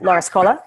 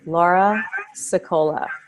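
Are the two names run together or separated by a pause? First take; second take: run together; separated. First: The names are blurred together quickly, without pause. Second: The names are separated by a pause, slowly. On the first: The speaker calls it wrong. "Instead of" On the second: The speaker calls it right. "going up, and then a pause at the top to separate the names, and then the last name coming down"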